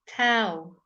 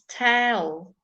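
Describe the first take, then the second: First: The vowel is shifted and coloured by the L. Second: The same.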